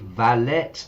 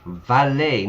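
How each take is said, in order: First: It is said with a Spanish-learner pronunciation. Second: It is said with native English pronunciation. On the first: The speaker calls it wrong. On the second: The speaker calls it right. "Notice the pronunciation"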